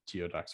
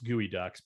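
First: The first syllable sounds like 'gee-oh'. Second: The first syllable sounds like 'gooey'. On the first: "but I always say geoducks" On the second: "I pronounce gooey ducks"

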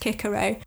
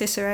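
First: The first C is hard, like a K. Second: The first C is soft, like an S. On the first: The speaker calls it right. "it's pronounced Cicero" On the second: The speaker calls it wrong. "which is not pronounced Cicero"

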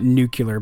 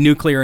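First: It is said with a disliked variant pronunciation. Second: It is said with the standard pronunciation. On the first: The speaker calls it wrong. "not nuclear" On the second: The speaker calls it right. "Thank you for saying nuclear"

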